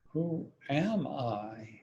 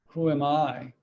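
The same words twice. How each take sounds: First: It is said with a different, doubting inflection. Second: It is said as a plain, neutral question. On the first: Maybe I'm not exactly what I had assumed. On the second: It is a simple question about identity.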